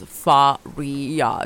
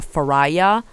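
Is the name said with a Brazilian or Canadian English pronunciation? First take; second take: Brazilian; Canadian English. First: The name is said with a Brazilian Portuguese pronunciation. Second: The name is said with an English-speaking Canadian pronunciation. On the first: This is how the name is really said. The speaker calls it right. "it's Faria" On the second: This imitates how locals mangled the name. The speaker calls it wrong. "They would call me [name]"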